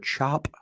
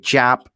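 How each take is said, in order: First: The word is said in a standard accent. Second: The word is said in a Baltimore accent. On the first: "I cannot say the word chop" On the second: "A as a guy from Baltimore, ... I say chop"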